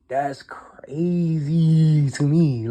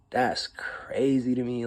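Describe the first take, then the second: First: Very slow whisper, drawn out; slow stunned whisper. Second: Slow whisper, stunned; whispered disbelief. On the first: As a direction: let it hang in a hushed whisper. Whispered disbelief again. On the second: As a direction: breathe it out in disbelief. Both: Real, not acted.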